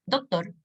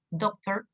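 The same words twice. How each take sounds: First: "doctor" pronounced the Spanish way; Spanish pronunciation. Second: "Doctor" pronounced the English way; English pronunciation. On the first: Teacher contrasting it with English, "doctor" with Spanish pronunciation. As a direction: say "doctor" as a Chilean Spanish word. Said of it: "en Chile". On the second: Teacher showing learners the word in English, "Doctor" with English pronunciation. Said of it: "en inglés". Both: Shown as a demonstration.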